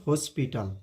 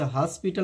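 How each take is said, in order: First: हॉस्पिटल as "hoe-spital"; correct pronunciation. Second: हॉस्पिटल as "haspital", open "a"; wrong pronunciation. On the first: Teacher corrects students, हॉस्पिटल with rounded "o". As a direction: round the first vowel of हॉस्पिटल to "o". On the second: Teacher tells students not this हॉस्पिटल, open "a". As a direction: open the first vowel of हॉस्पिटल to "a". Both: Shown as a demonstration. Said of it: "इसे हॉस्पिटल नहीं".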